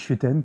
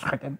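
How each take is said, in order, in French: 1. Le R est un R doux à la française. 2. Le R est un R rude et guttural. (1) "comme tous les Français" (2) "je crois que ça se prononce Schruten"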